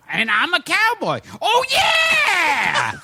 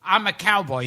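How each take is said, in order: First: Punchline exploding into a high, long yell; Freddie Rogers catchphrase. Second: Said in the usual way. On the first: Retold or imitated. Imitating an old comic saving his punchline, high drawn-out shout. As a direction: deliver it, then wail the catchphrase high. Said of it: "he'd go". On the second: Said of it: "the punchline was".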